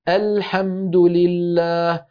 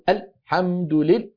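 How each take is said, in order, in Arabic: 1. يستمر صوت L بسلاسة دون أن يُقطع. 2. يُقطع صوت L فجأة. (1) "فلا نبتر صوت اللام" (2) "لا نقول الحمد لله ببتر"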